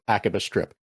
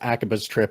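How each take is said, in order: First: The s sound starts the second word. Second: The s sound ends the first word. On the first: "or Akaba Strip" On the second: "you can pronounce the game as Akaba's Trip"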